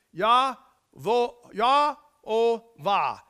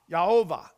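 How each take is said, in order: First: Yah-o-vah drawn out slowly and loudly in separate syllables; long form, syllable by syllable. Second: Said in the usual way. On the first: Shown as a demonstration. Preacher showing the name's long form, Yah-o-vah syllable by syllable. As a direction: break Yah-o-vah into YAH, OH, VAH with gaps between. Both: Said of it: "when you do the long form of it".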